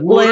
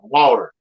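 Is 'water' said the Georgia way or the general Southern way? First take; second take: Georgia; Southern. First: It is said with a Georgia pronunciation. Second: It is said with a general Southern pronunciation. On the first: The speaker calls it wrong. "you Georgia people trip me out with that Woodard" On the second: The speaker calls it right. "I call it water, like you're supposed to in the South"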